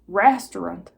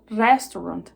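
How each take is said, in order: First: The R is an English-style approximant. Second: The R is a Portuguese-style rolled R. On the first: "Se você não consegue falar restaurant" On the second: "se você puxar aquele Rzinho"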